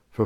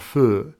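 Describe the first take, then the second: First: Said in the usual way. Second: FUR with the vowel of "her", in place of "for"; vernacular pronunciation. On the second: Shown as a demonstration. Presenter showing old Cockney forms, FUR in place of for. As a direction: say "fur" for the word for. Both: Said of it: "fur for for".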